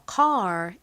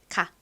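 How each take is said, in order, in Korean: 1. 이 단어는 분명한 r 소리로 끝납니다. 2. 이 단어는 r 소리 없이 끝납니다. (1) "미국식 발음으로는 이 R의 소리를 살려서 car 이렇게 발음합니다" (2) "한국식으로는 ... R에 이 리을 받침 빼고 보통 카 이렇게 표기하죠"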